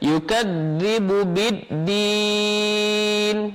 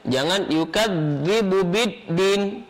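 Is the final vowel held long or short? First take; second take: long; short. First: The final vowel is drawn out long. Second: The final vowel is cut short. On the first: The speaker calls it right. "Dia harus dipanjangkan dan mengalir" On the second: The speaker calls it wrong. "jangan ... salah"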